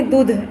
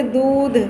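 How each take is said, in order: First: दूध with the oo cut short, like दुध; wrong short vowel. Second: दूध with the oo pulled long; drawn out. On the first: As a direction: rush the vowel in दूध as the mistake. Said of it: "ऐसे नहीं दूध". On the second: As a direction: stretch the vowel in दूध. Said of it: "थोड़ा खींच के बोलते". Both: Shown as a demonstration.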